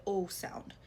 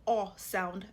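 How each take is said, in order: First: "O" as a closed oh; regular O sound. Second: "O" as an open aw; grave O sound. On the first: Teacher showing O without the accent, regular closed sound. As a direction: sound O as a plain rounded oh. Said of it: "it's just a regular O". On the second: Teacher showing what takes the grave accent, open O. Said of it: "this is what takes the grave". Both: Shown as a demonstration.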